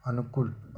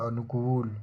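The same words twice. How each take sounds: First: अनुकूल with short final vowel; wrong form. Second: अनुकूल with long final oo; correct form. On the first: Teacher showing the error, अनुकूल with short ku. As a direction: say अनुकूल as anu-kul. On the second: Teacher correcting it, अनुकूल with long koo. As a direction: say अनुकूल as anu-kool. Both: Shown as a demonstration. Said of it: "अनुकूल नहीं होता".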